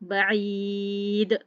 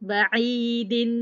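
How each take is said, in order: First: The word ends on a plain 'd' sound. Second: The word ends with an added 'in' sound. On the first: The reader stops on this word. "अगर वफ़ करती हूँ" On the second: The reader joins this word to the next. "अगर इसको वसल करते हैं"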